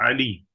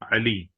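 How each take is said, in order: First: The word ends in an 'ee' vowel. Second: The same.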